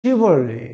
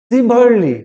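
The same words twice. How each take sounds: First: শিভারলি with initial sh, falling; correct pronunciation. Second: সিভারলি with initial s, louder; hiss-free plain s opening সিভারলি; wrong pronunciation. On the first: Teacher giving students the answer, correct pronunciation. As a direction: open শিভারলি on a sh sound. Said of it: "সঠিক উচ্চারণ হবে কি?". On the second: Teacher citing what many say, wrong pronunciation. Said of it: "না". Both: Shown as a demonstration.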